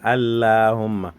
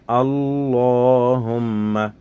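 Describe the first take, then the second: First: The L sounds light and thin. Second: The L sounds heavy and thick. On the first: The speaker calls it wrong. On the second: The speaker calls it right.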